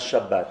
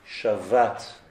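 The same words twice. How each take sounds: First: The middle consonant is a hard b sound. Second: The middle consonant is a soft v sound. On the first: It is a noun naming the day of rest. The speaker calls it wrong. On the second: It is a verb meaning he rested. The speaker calls it right.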